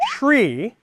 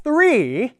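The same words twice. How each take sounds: First: "tree" with a plain t; wrong version "tree". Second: "Three" higher, tongue out. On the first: Teacher compares tree and three. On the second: Teacher compares three and tree. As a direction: clear th in "Three". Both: Shown as a demonstration. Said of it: "hear that difference?".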